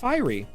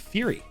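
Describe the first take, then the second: First: The word sounds like fiery. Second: The word sounds like fury. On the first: The speaker calls it right. "not fiery" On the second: The speaker calls it wrong. "I used to say Fury"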